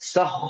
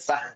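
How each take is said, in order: First: It is said with rounded lips, sounding heavy. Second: It is said with spread lips, sounding thin. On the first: The speaker calls it right. "വായ വിടാതെ വായ ഇങ്ങനെ ഓ ഷേപ്പില്" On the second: The speaker calls it wrong. "ഇത് വായ വിടർത്തിയിട്ട് സഹ ഹ എന്ന് പറയരുത്"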